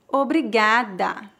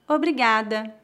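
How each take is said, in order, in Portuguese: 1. Diz-se muito devagar. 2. Diz-se em velocidade natural. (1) "uma vez bem devagar" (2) "2 vezes mais naturalmente"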